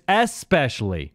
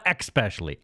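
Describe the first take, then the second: First: The word begins with 'esp', no 'k' sound. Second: The word begins with 'exp', adding a 'k' sound. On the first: The speaker calls it right. "There's no k in spe- especially. It's especially" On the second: The speaker calls it wrong. "not especially"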